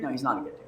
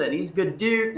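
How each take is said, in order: First: "not" leaned on, the whole line dropped low and quiet; stress on not. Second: Said in the usual way. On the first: Shown as a demonstration. He takes it back, quiet, stressing "not". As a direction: correct yourself, hitting "not".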